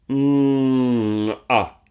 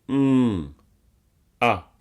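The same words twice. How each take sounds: First: The first sound glides smoothly into the second. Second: The two sounds are said separately with a break.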